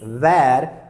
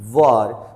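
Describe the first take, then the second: First: The word rhymes with 'hair'. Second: The word rhymes with 'her'. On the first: The speaker calls it wrong. "this is not the correct pronunciation" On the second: The speaker calls it right. "The correct pronunciation is were"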